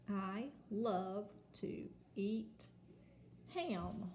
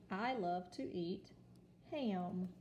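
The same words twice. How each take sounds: First: Slow, word by word reading; slow read-aloud. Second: Said in the usual way. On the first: Shown as a demonstration. Teacher modelling a sentence slowly for children. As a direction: read it out for beginners. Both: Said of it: "Now let's read our sentence".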